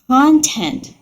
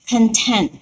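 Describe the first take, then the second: First: The stress is on the first syllable. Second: The stress is on the second syllable. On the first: It refers to material someone has made. "I really love your content" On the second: The speaker feels satisfied. "I am content. It means I am satisfied"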